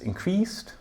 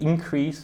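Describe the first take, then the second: First: The stress is on the second syllable. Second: The stress is on the first syllable. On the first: It is used as a verb. "If I put the stress on the end of the word, then it's the verb" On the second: It is used as a noun. "if I make it a noun, ... then the stress is at the start"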